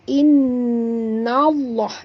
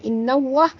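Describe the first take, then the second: First: The middle consonant is a heavy, thick l. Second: The middle consonant sounds like a w. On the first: The speaker calls it right. "nallah tebal pada lam ni" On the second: The speaker calls it wrong. "bukan innawah ... bunyi waw pula"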